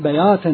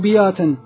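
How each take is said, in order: First: The first syllable has no i vowel. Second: The first syllable has an i vowel. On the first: The speaker calls it right. "هذا الصحيح" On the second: The speaker calls it wrong. "كسر كلمة بياتا"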